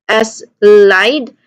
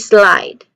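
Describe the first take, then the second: First: The S is said apart from the word. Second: The S runs straight into the L. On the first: The speaker calls it wrong. "you do not say S, S slide" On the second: The speaker calls it right. "but you say slide. You blend them"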